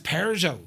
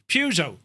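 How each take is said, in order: First: The word is said with an R sound. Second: The word is said without an R sound. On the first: The speaker calls it wrong. "Who says Peugeot? There's no R in Peugeot" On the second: The speaker calls it right. "There's no R in Peugeot"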